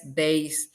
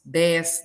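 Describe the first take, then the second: First: "dez" dito déis; i inserido. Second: "dez" com é puro; sem i inserido. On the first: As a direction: acrescente um i em "dez": dé-is. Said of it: "Ou aumenta um som". ("dez" com ditongo éi) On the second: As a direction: diga "dez" sem ditongo. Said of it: "é colocar um I". ("dez" com vogal aberta única, dés) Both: Shown as a demonstration.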